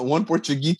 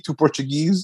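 First: Portuguese said as "portu-GEE", no final S; higher "Portugee", dropping the last S; joke singular. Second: Portuguese with its final S sounded; higher "portu-GEEZ", ending on a Z sound; joke plural. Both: Shown as a demonstration. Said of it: "it's the same thing".

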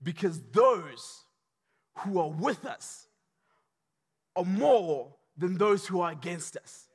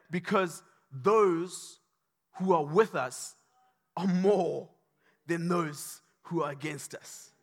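First: Slow steady assurance. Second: Slow calm assurance. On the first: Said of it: "don't be scared". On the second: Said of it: "he says, Do not fear". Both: Acted.

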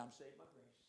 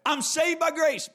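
First: "I'm saved by grace" tossed off much softer and lower; mock careless throwaway; imitating people brushing it off, barely voiced; dismissive mumble. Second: "I'm saved by grace" said higher, stopping short on "grace"; preacher repeating the phrase with a pointed fall; pointed quote. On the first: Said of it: "people just want to say". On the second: Retold or imitated. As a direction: quote it firmly to expose what's missing. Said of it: "you don't get to dismiss the rest of the word".

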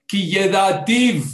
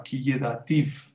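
First: "Ki yedativ" spoken slowly, higher and louder, each syllable leaned on; preacher's punch on "Ki yedativ", drawn out; emphatic slow stress. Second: Said in the usual way. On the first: Shown as a demonstration. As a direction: hammer home "Ki yedativ" slowly and loud. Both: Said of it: "¿Qué es ki yedativ?".

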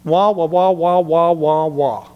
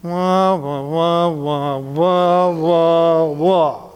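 First: Muffled adult voice going wah wah; garbled wah wah like a cartoon grown-up; muffled wah wah talk. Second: Wah wah repeated back verbatim; garbled wah wah with attitude; muffled wah wah talk. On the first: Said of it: "So I illustrate like this". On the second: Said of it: "I heard you say". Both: Shown as a demonstration.

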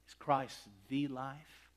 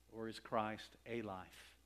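First: Slow, "the" said as "thee", rising at the end; stress on THE. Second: Slow, with "a" said as a full long "ay"; stress on A. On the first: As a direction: lean on "the" as the one and only. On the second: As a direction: lean on the word "a" as merely one of many. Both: Real, not acted. Contrasts "a" with "the.

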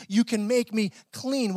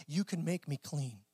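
First: Slow, with "make" leaned on; stress on make. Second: Said in the usual way. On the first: Shown as a demonstration. A preacher pointing out the leper's exact words, slow and stressed. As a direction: drag out "You can make me clean" and lean on "make". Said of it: "He actually says". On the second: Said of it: "Notice what he says".

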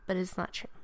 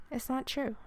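First: Said in the usual way. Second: "not" lifted high and leaned on; insist, hitting "not" hard; it's NOT true, with "not" sharply raised; stress on not. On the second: Shown as a demonstration.

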